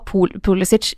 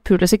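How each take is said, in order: First: The name is said the way used in Germany. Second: The name is said the way used now. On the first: This is how he said his name in Germany. "Han sa Pulisic i Tyskland" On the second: This is how his name is said now. "mens de visste nok Pulisic nå"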